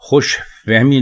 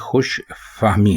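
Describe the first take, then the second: First: The vowel after f is an i sound. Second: The vowel after f is an a sound. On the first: The speaker calls it wrong. "फे के नीचे अगर जेर लगा लेंगे तो ये खुश फहमी हो जाएगा, जो कि गलत है" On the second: The speaker calls it right. "दुरुस्त है फे के ऊपर जबर लगाना"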